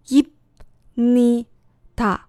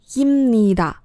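First: The syllables are said slowly, one by one. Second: The syllables run together, with an m sound. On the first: "先慢慢的念" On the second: "然后再连在一起念"

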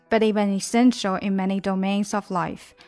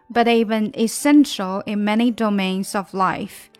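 First: It is read at a somewhat faster pace. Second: It is read at a slower, normal pace.

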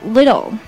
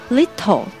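First: The middle consonant is a soft d sound. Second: The middle consonant is a clear t sound. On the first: The speaker calls it right. "要读little" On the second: The speaker calls it wrong. "不要读little"

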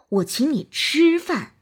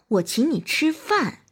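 First: The stress is on the word 吃. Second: The stress is on the word 饭. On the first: "突出吃" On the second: "突出饭"

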